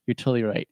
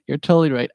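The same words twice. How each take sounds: First: Said in the usual way. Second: "totally" said higher and louder, leaning on it; emphatic repeat. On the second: Retold or imitated. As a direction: insist you're convinced, hit "totally".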